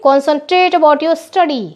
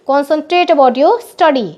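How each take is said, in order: First: Slow dictation. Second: Each word laid out slowly for copying; slow dictation. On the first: Teacher dictating slowly to her pupils. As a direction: spell it out slowly, word by word. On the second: Teacher repeating the phrase slowly for pupils. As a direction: dictate the line slowly, unhurried. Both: Shown as a demonstration. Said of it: "कैसे बोलेंगे?".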